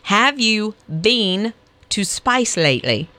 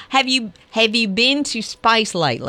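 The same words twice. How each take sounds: First: Slow, spaced-out teaching of an Australian accent; careful, drawn-out Australian accent lesson; Australian accent demo. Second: "lately" said as LIGHT-lee, Australian style; coach's Australian accent, "lately" rhyming with "nightly"; Australian accent demo. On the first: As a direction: demonstrate Australian vowels word by word. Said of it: "how to do an Australian accent". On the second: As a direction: show the Australian vowel on "lately". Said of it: "you lose it on the lately". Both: Shown as a demonstration.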